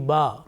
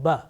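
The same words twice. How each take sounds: First: The vowel is held long. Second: The vowel is cut short. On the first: It is the letter's name with no short vowel mark. "without any harakat, without any vowel" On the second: The letter carries a short vowel mark. "the pronunciation is restricted and limited only to one second"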